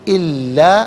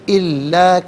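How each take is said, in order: Both takes have the same delivery.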